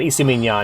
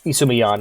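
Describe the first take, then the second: First: The name ends with a cat-like meow sound. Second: The name ends plainly, without a meow-like sound. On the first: The speaker calls it wrong. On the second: The speaker calls it right.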